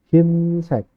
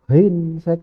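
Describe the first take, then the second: First: The first vowel is a plain i sound. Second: The first vowel is a gliding ei sound. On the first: The speaker calls it right. "tapi jadi hinsek" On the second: The speaker calls it wrong. "bukan hinsek"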